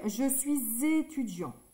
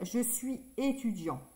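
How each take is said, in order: First: Suis is linked to étudiant with a z sound. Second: Suis and étudiant are said with no linking sound. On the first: The speaker calls it right. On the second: The speaker calls it wrong.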